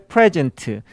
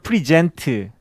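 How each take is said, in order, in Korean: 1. 강세는 첫 번째 음절에 있어요. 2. 강세는 두 번째 음절에 있어요. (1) "프레젠트 할 때는 앞에 강세가 있고" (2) "프리젠트 할 때는 뒤에가 강세가 있고"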